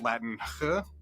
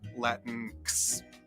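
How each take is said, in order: First: The word ends with an h sound. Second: The word ends with a ks sound. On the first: "pronounced with an English H sound like in house" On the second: "with the K S sound like in English fix"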